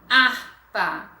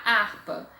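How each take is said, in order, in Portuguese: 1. A palavra começa diretamente com o som da vogal. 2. A palavra começa com um som de h audível. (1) "Eu falo harpa" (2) "Eu não falo H"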